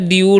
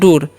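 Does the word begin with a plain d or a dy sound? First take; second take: dy; d. First: The word begins with a dy sound. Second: The word begins with a plain d sound. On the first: The speaker calls it wrong. "अगर हम यहाँ पर डी का उच्चारण डी करते हैं तो क्या होता है" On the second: The speaker calls it right. "डी से ड होगा तब ना डूर पढ़े हैं"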